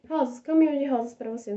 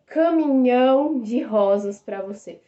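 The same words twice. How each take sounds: First: Said in the usual way. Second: "caminhão de rosas pra você" said slow and louder, like a grand declaration; romantic example line. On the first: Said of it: "Você não necessariamente vai dar". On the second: Shown as a demonstration. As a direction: lean on "caminhão", savouring the offer. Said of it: "Você não vai dar um caminhão de rosas".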